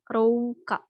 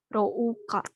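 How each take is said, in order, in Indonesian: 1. Ada bunyi o yang diikuti bunyi u yang terpisah. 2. Ada bunyi o yang diikuti bunyi u yang terpisah.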